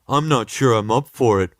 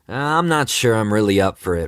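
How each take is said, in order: First: It is said in a dumb caveman voice. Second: It is said in a normal voice.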